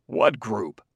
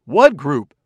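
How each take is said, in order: First: Said in the usual way. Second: Louder, sharp, startled echo. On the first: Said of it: "asked Fastolf". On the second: A narrator's reading. Enderby echoing Fastolf, louder and startled. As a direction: jump in alarmed. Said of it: "echoed Commissioner Enderby almost simultaneously".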